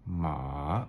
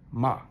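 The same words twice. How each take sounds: First: The pitch dips down then rises. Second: The pitch falls sharply from high. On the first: "down, up" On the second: "sharp down"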